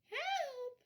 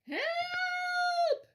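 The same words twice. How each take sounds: First: It is said very quietly. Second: It is wailed loudly and long.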